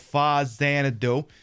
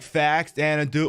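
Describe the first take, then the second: First: The name begins with 'fa' then 'Xanadu'. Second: The name begins with the word 'fax'. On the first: "pretend you're watching the [name] movie and go Fa Xanadu" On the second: "you could go fax Xanadu"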